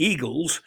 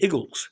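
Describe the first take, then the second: First: Said in the usual way. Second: "Eagles" with a short first vowel, like "Iggles"; Philadelphian pronunciation. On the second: Shown as a demonstration. Showing what Philadelphians call their team, "Eagles" said as "Iggles". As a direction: say "Eagles" as "Iggles", Philly-style. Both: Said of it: "but they call them the Eagles".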